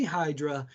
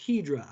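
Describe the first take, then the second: First: First syllable of Hydra rhymes with "sky"; anglicized pronunciation. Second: Hydra said as "HEE-drah"; first syllable of Hydra rhymes with "see"; correct French-style pronunciation. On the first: Trainer explaining her own way of saying it, anglicized pronunciation. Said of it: "I say Hydra". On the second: Trainer correcting the product name for stylists, French-style pronunciation. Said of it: "It's actually pronounced". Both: Shown as a demonstration.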